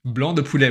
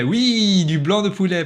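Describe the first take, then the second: First: Realizing the right word aloud; found word. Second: Higher, louder triumphant confirmation. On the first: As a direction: blurt out the word. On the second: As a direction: nail the right word, proud of yourself. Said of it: "Bien joué". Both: Real, not acted.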